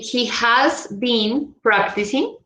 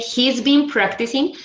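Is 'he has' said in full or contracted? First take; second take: full; contracted. First: He has is said as two full words. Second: He has is shortened to one syllable. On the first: "I can say he has been practicing" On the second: "pronunciation will be his"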